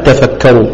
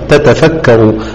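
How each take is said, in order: First: The two t sounds merge into one doubled t. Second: The two t sounds are pronounced separately. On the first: The word is joined to the word before it. "انفرد الرويس وحده بالإدغام وجها واحدا" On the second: Recitation begins at this word. "إذا هي عند البدء لا خلاف فيها"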